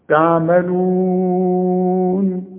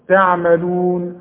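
First: The long vowel is held for four counts. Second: The long vowel is held for two counts.

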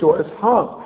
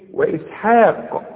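First: The final qaf ends without an echoing bounce. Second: The final qaf ends with an echoing bounce. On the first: The speaker calls it wrong. "ما نقولش" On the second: The speaker calls it right. "إذا وقفت على كلمة إسحاق، قلقل القاف"

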